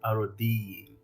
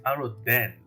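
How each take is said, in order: First: The name ends with a long 'dine' sound. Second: The name ends with a short 'den' sound. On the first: The speaker calls it wrong. "not Arodine" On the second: The speaker calls it right. "the correct pronunciation is Aroden"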